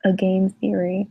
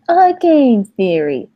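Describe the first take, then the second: First: Said in the usual way. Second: Slow, higher, louder mock show tagline; YouTuber catchphrase. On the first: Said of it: "it's just what he says". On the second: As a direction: draw out the host's tagline. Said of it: "Was that your impression?".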